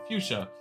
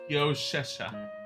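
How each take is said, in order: First: The word is pronounced in its usual form. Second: The word is pronounced with extra garbled syllables. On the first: The speaker calls it right. "pronouncing it as it is" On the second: The speaker calls it wrong. "he pronounced it as Fioshesha"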